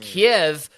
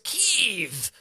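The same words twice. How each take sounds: First: The name is said the long-familiar English way. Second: The name is said the newer, local-style way. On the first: This is how it was always said. "for a lifetime it was" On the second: This is how people are now told to say it. "and then now, no, you racist, it's"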